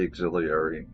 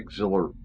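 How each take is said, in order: First: The 'ee' sound after the L is kept. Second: The 'ee' sound after the L is dropped. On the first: The speaker calls it right. "which is how it's spelled. It has an I in there" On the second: The speaker calls it wrong. "I just say auxiliary"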